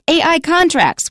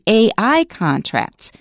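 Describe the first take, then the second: First: The stress falls on the word contracts. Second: The stress falls on the letters AI. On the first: The speaker calls it wrong. "So we don't say" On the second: The speaker calls it right. "We say ... the noun you're modifying won't be stressed"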